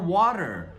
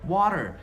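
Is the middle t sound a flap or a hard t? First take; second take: flap; flap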